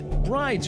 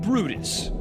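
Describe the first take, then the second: First: The name is said the common English way. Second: The name is said the original Norwegian way. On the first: "The common version is" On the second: "the original Norwegian pronunciation"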